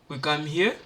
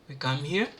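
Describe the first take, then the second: Both takes have the same delivery.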